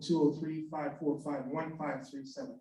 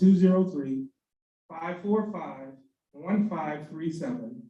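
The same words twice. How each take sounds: First: The number is read out quickly. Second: The number is read out slowly. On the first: The speaker calls it wrong. "give your contact information a little slower" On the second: The speaker calls it right. "That was much better"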